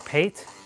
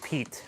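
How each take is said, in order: First: The vowel does not rhyme with meat. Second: The vowel rhymes with meat. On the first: "Or Pate?" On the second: "it should be Pete, because it should rhyme with meat"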